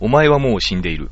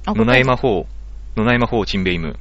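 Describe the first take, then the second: First: It is said with natural Japanese intonation. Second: It is said with a foreign-sounding intonation. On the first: The meaning is fully understood in Japanese. "日本語で成立してるから" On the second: The words sound like a different language. "このイントネーションだけで、全く別な言葉"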